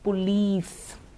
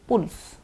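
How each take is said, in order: First: The word is said in full, both vowels clear. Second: The word is shortened, first vowel nearly dropped. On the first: The speaker calls it right. "let's say it properly" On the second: The speaker calls it wrong. "We are habituated to hearing people say pulse or something shorter"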